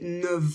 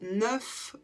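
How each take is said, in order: First: The word ends with a V sound. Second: The word ends with an F sound. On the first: "où on va le prononcer en V" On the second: "Et là, on prononce un F"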